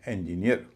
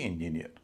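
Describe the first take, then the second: First: Both the first and last syllables are stressed. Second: Only one syllable carries the stress. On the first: The speaker calls it right. "इसमें भी double stress है" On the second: The speaker calls it wrong. "न कि"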